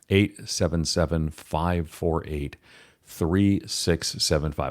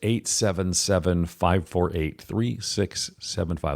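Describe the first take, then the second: First: The number is read slowly and deliberately. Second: The number is read at a normal pace.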